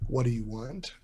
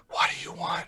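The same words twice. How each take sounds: First: Said in the usual way. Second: Hushed secret whisper. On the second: Acted. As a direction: whisper it so only she hears. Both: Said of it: "Well, I'm gonna whisper it".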